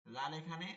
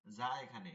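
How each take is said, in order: First: Tongue tip on upper teeth for লাল; zal at upper teeth. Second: Buzzing z on যা, pitched lower; tongue tip to lower teeth for যা. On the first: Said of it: "একটা হচ্ছে উপরের দাঁত". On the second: Teacher repeating za's place, buzzed z. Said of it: "সানাই সুফলা দাঁতের অগ্রভাগ". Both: Shown as a demonstration.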